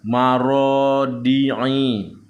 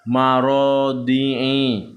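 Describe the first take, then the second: The two takes are said the same way.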